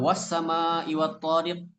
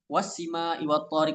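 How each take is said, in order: First: The vowel after the s is an a. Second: The vowel after the s is an i. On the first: This is the established reading. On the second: This reading is made up by the reader.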